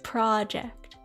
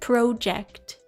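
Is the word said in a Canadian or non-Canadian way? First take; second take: non-Canadian; Canadian. First: It is said without a Canadian pronunciation. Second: It is said with a Canadian pronunciation. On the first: "instead of project" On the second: "They say project"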